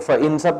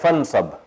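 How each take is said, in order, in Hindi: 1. 'nsab' से पहले एक अलग स्वर सुनाई देता है। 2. स्वर गिर जाता है और 'fa' 'nsab' से जुड़ जाता है। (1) "फ इन सब के बजाय" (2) "साइलेंट हो जाता है"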